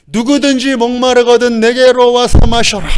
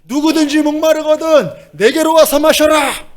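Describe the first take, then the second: First: High, raised proclamation; sustained high-pitched call. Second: Very high, stretched-out shout; piercingly high cry, held long; straining crowd call. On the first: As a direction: cry out an invitation to a crowd. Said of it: "막 외치셨던 거예요". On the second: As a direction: holler over a noisy crowd with no microphone. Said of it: "마이크도 없는 그때". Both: Acted.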